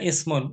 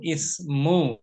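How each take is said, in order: First: The word ends with an n sound. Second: The word ends in a vowel, without n. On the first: The speaker calls it wrong. "jangan dibaca ismun" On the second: The speaker calls it right.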